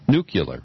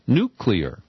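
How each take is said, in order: First: The middle has an extra 'yuh' syllable. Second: The middle has no extra 'yuh' syllable. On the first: The speaker calls it wrong. "he pronounced the word nuclear" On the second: The speaker calls it right. "the correct pronunciation is nuclear"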